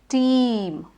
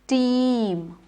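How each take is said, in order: Both takes have the same delivery.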